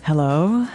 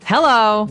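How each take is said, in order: First: It is said more gently and softly. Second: It is said too forcefully and strongly.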